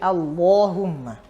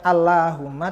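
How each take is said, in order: First: The L sound is heavy and thick. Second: The L sound is light and thin. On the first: The speaker calls it right. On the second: The speaker calls it wrong.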